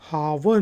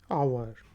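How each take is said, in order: First: The word begins with an h sound. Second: The word begins with a vowel sound. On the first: The speaker calls it wrong. "हावर नहीं कहेंगे" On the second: The speaker calls it right. "इसमें एच की आवाज नहीं आ रही"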